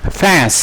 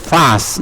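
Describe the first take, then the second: First: The vowel leans toward an e sound. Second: The vowel does not lean toward e. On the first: "Jadi kalau American itu agak ke ke E ya" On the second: "Kalau ini fast ya"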